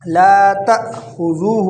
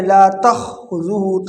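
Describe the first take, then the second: First: Slow لا تأخذہ, sharp stop after تأ; separated ta hamza. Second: لا تأخذہ as takh-uzu, hamza lost; wrongly joined ta-kha. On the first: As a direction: recite long لا, break before خذہ. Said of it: "یہ الف کے ساتھ ہے". (تأ پر رک کر، خا الگ) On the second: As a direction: run تا straight into خا as a mistake. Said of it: "تا کو خا کے ساتھ ملا دیتے ہیں". (تا کو خا سے ملا کر غلط) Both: Shown as a demonstration.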